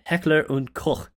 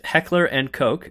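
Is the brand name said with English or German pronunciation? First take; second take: German; English. First: The name is said with German pronunciation. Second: The name is said with English pronunciation. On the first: "which is the German pronunciation" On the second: "as you said"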